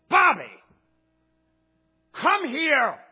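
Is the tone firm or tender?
firm. It is said in a firm, matter-of-fact tone. The speaker is calling the child over.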